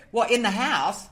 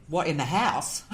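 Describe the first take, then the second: First: Higher, louder amused disbelief; amused surprise. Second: Said in the usual way. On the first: Retold or imitated. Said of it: "That was my expre". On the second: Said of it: "And I said".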